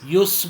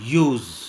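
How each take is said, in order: First: The word ends with a hissing s sound. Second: The word ends with a buzzing z sound. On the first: The speaker calls it wrong. "यूस बोलेंगे तो सा का आवाज़ आएगा" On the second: The speaker calls it right. "मगर मैं जा का आवाज़ निकाल रहा हूँ"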